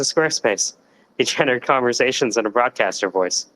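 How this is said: It is said in a casual sidekick character voice. "or like a sidekick"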